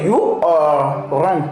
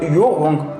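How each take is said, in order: First: You are is said as two full words. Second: You are is contracted into one syllable. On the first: "Normalement c'est" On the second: "c'est la forme contractée on utilise"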